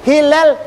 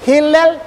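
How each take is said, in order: Both takes have the same delivery.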